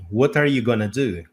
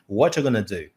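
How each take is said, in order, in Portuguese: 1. going to é reduzido para gonna. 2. are é omitido e going to vira gonna. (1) "como ela realmente é no dia a dia" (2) "Ou what you gonna do?"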